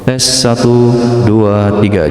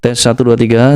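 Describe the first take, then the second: First: The voice has an added reverb effect. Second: The voice sounds dry without a reverb effect. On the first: "Coba kita pakai Revoke, ini popular song ya" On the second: "ini teman-teman suaranya seperti ini ya"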